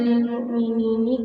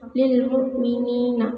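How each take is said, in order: First: The final syllable ends with an i vowel. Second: The final syllable ends with an a vowel. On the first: The speaker calls it wrong. "tidak dibaca" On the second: The speaker calls it right. "nun jamak dibaca fathah"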